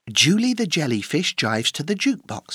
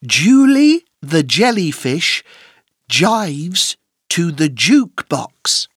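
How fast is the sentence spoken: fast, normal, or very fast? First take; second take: fast; normal. First: The sentence is spoken at a fast pace. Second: The sentence is spoken at a normal pace.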